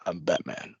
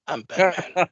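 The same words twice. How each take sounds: First: Much lower and much softer, like gargling battery acid; Batman growl. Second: Mock Batman growl breaking into a laugh. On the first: Retold or imitated. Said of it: "talk like he was just gargling battery acid". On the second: Podcaster redoing the Batman line while laughing at it. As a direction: try the gravel voice but crack up. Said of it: "gargling battery acid".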